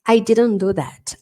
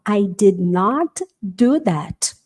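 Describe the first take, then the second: First: Did not is contracted with the t dropped. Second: Did not is said as two full words. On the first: It is an ordinary, neutral denial. "Fora isso, I didn't" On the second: The speaker firmly insists on the denial. "Então é essa hora que você vai falar"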